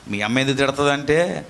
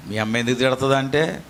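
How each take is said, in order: Both takes have the same delivery.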